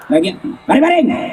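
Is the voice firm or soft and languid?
firm. It is said in a firm, curt voice.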